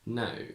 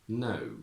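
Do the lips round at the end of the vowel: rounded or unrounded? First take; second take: unrounded; rounded. First: The lips barely move at the vowel's end. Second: The lips round strongly at the vowel's end. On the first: It is the older, traditional style. "starting from traditional" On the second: It is the modern style. "to modern"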